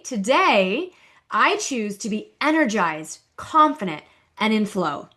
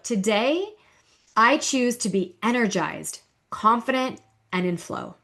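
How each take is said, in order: First: It is said louder. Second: It is said at normal volume.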